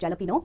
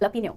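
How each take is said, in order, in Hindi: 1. इस शब्द की शुरुआत j ध्वनि से होती है। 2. इस शब्द की शुरुआत h ध्वनि से होती है। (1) "उसको लिखा जाता है" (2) "जे से शुरू हुआ है तो ह से प्रोनाउंस करना है"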